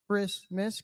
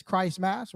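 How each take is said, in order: First: Said in the usual way. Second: "Christmas" said as "Christ-mass", long i in the first part; Christ-mass pronunciation. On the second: Shown as a demonstration. Preacher exposing the name hidden in the holiday, "Christmas" pronounced "Christ-mass". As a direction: say "Christmas" as two words, Christ and mass, with a full a. Breaks word to show Christ.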